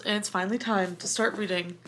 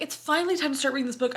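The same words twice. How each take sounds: First: Said in the usual way. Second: Higher, faster hammed-up announcement; mock dramatic. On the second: Teasing herself about her dramatic start, mock grand. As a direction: replay your own line as a big dramatic moment. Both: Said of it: "I'm so dramatic".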